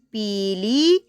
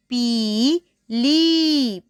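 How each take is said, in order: First: Said in the usual way. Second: पीली with the long ई sound stretched very slowly; long ee drawn out. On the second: Shown as a demonstration. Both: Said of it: "बड़ी ई की जो आवाज़ होती है वो होती है ई".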